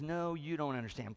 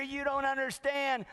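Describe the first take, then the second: First: Calm, unruffled reply in an everyday pitch; no big deal. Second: High-pitched, hammed-up desperate cry; frantic. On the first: Acted. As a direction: correct the panicker patiently, without raising the voice. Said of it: "like no big deal". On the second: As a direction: plead in an exaggerated panic, pitch way up. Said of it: "one guy is just frantic".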